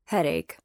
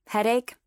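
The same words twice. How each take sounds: First: "Headache" at usual pitch, falling at the end; confirming answer. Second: "Headache" higher, rising at the end; questioning guess. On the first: Cam confirms his date's excuse, "Headache" as a falling answer. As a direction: state "Headache" with a final falling tune. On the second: Lily guesses his date's excuse, "Headache" as a rising question. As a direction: ask "Headache" with a lifted, rising tune. Guess asked, then confirmed. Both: A narrator's reading.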